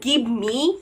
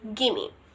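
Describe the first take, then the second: First: Give me is said as two full words. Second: Give me is blended into one word, gimme. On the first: "Instead of saying give me" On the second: "you were just saying gimme"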